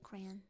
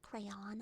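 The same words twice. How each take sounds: First: The word ends without a clear 'on' syllable. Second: The word ends with a clear 'on' syllable. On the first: The speaker calls it right. "I say crayon" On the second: The speaker calls it wrong. "It's not crayon. ... What do you crayon? And then you turn it cray off?"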